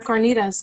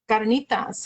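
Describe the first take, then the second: First: The word is said with an American English accent. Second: The word is said with a Spanish accent. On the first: The speaker calls it wrong. "I said that very uh, not Hispanically" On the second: The speaker calls it right. "Let's say it that way"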